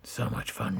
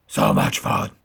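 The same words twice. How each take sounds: First: Said in the usual way. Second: Loud low gravelly growl; deep growling Batman. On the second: Pretend. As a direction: say it again as Batman. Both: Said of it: "repeated in Batman voice".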